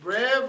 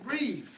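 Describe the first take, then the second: First: The vowel is short, as in 'bed'. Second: The vowel is long, as in 'bee'. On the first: "or you can pronounce it brev" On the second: "or you can pronounce it breeve"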